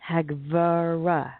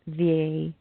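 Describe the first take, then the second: First: The word ends with a plain 'ah' sound. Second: The word ends with an added 'ee-ah' sound. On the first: The speaker calls it right. "It's um, Hagvara" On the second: The speaker calls it wrong. "No, it's not Hagvaria"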